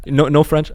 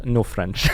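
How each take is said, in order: First: Incredulous "No, no French?", pitched up and louder; retold check, higher and louder; questioning retold quote. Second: "No French." with a falling end; retold reply, settled at usual pitch; matter-of-fact retold answer. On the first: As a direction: raise "French" as a disbelieving question. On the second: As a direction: confirm "No French" as a plain statement.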